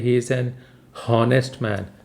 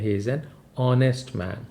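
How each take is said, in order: First: Honest begins with an audible h sound. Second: Honest begins with a vowel, no h sound. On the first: The speaker calls it wrong. "हम ये नहीं कहते ... ह नहीं कहते" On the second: The speaker calls it right. "हम कहते हैं"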